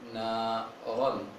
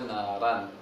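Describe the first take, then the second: First: The r is heavy with a rounded vowel. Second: The r is light with an open vowel. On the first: The speaker calls it right. "mesti ditebalkan" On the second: The speaker calls it wrong. "Jangan dibaca naran"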